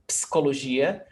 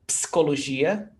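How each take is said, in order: No difference in how they are said.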